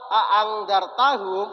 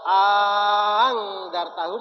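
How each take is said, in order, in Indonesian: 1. Kedua hamzah dibaca tegas dan jelas. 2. Hamzah kedua dilunakkan dan dibaca ringan. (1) "itu namanya bacaan tahqiq" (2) "itu namanya bacaan tashil"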